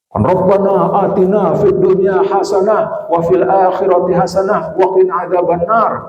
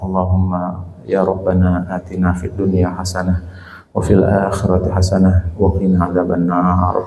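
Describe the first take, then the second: First: The prayer is said loudly, like a sermon. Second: The prayer is said softly, barely audible.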